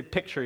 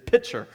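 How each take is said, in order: First: Said in the usual way. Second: Daddy mimicking his daughter's version of picture; child's mispronunciation. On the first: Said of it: "She doesn't say picture yet". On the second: Shown as a demonstration. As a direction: say picture like a three-year-old who can't say it yet. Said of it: "She says picture".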